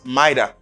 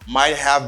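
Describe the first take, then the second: First: The words blend into a reduced 'mighta'. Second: Both words are said fully and separately. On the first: "becomes mighta" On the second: "Might have becomes mighta"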